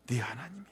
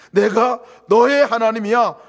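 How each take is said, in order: First: Soft whisper; whispered God's voice. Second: Much louder, slow; God's proclamation. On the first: Preacher voicing God to the church, whispered. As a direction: breathe it close. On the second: Preacher voicing God to the church, loud and slow. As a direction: swell to full voice. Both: Pretend. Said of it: "이 음성을 들으시기를 바랍니다".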